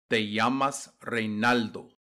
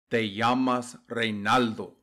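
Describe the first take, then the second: No difference in how they are said.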